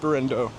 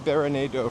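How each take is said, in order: First: The name is said with three syllables. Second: The name is said with four syllables. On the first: The speaker calls it right. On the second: The speaker calls it wrong.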